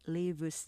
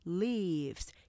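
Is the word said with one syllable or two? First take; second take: two; one. First: The word is said as two syllables. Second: The word is said as one syllable. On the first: The speaker calls it wrong. "산다고 할 때 lives 하지만" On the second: The speaker calls it right. "이름절로 발음하셔야 돼요"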